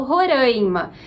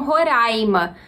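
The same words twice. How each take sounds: First: "Roraima" with nasal AI, ro-RÃI-ma, drawn out; speaker's regional pronunciation. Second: "Roraima" with open oral AI, ro-RÁI-ma; local pronunciation. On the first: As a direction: say "Roraima" slowly with a nasal stressed vowel. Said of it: "Eu, que venho de Minas Gerais". ("Roraima" nasalizado, ro-RÃI-ma) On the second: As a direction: keep the AI of "Roraima" open, no nasality. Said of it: "elas pronunciam Roraima". ("Roraima" com ditongo oral aberto, ro-RÁI-ma) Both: Shown as a demonstration.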